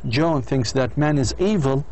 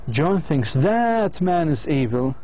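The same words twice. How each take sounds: First: The word 'that' is reduced and unstressed. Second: The word 'that' is full and stressed. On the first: All human beings are evil. "هذا weak" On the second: One particular man is evil. "وهذا strong"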